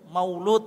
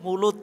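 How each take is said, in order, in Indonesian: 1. Suku kata pertama punya bunyi 'au'. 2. Suku kata pertama punya bunyi 'u' biasa. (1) "Maulud aslinya" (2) "wong Jawa kan susah ngomong Maulud, jadi mulut"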